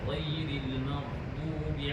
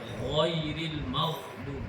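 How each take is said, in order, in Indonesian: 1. Konsonannya diucapkan dengan tenaga yang biasa dan santai. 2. Konsonannya ditekan dengan tenaga yang berlebihan. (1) "kita akan baca macam biasa" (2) "menekan macam ni"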